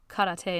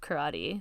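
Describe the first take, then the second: First: It is said with Japanese-like vowels and stress. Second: It is said with English vowels and stress. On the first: It sounds overly intellectual. The speaker calls it wrong. "when people say like uh, karate" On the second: It is the normal adapted form. The speaker calls it right. "just say karate. That's what we say"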